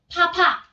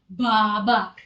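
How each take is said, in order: First: The p has a strong puff of air. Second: The b is voiced, like an Indonesian b. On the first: "Bukan juga dibacanya uh, papa. Bukan" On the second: "Bukan baba"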